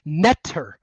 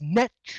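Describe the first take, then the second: First: The middle consonant is a plain t sound. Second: The middle consonant is a ch sound. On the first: The speaker calls it wrong. "it's actually not pronounced like that" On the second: The speaker calls it right. "if you actually pronounce the word in Egyptian, it's netcher, which is very close to nature"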